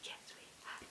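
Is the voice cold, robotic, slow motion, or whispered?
whispered. It is whispered.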